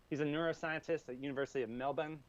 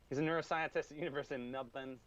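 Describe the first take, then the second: No difference in how they are said.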